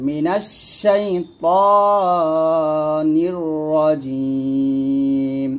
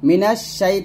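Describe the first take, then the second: First: Slow sung মিনাশ শাইতানির রাজিম with a heavy ত; correct chanted recitation. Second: মিনাশ শাই with a light thin তা, the wrong way. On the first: Teacher chants the correct heavy ত after the wrong one. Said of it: "এরকম". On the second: Teacher showing the mistaken thin তা sound. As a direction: say it thin as a warning. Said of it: "তা বলা যাবে না". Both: Shown as a demonstration.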